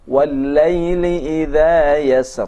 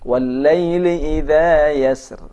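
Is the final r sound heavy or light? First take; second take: heavy; light. First: The final r is pronounced heavy and thick. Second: The final r is pronounced light and thin. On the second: "ataupun dibaca muraqqaq"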